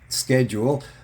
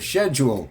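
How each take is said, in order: First: It is said the way people elsewhere say it. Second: It is said the way people say it up here.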